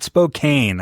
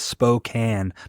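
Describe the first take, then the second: First: The name is said the outsider way. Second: The name is said the local way. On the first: The speaker calls it wrong. "not Spokane. I hate when people say that" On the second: The speaker calls it right. "the pronunciation of our city is Spokane"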